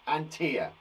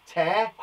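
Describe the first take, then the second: First: "tear" said to rhyme with ear; "tear" with an ear sound, like a teardrop; teacher repeating "tear" with an ear sound; tear as in crying. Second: "Tear" said to rhyme with bear; "Tear" with an air sound, as in ripping; teacher repeating "Tear" with an air sound; tear as in rip. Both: Shown as a demonstration. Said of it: "Again, we say differently".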